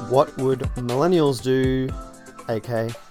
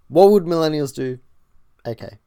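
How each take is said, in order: First: There is almost no pause before A K. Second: There is a clear pause before A K.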